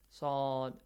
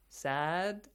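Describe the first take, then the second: First: The vowel is dark, heavy and emphatic. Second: The vowel is light and plain, not emphatic. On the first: The speaker calls it right. "make it produce an Bold A sound" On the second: The speaker calls it wrong. "instead of A sound"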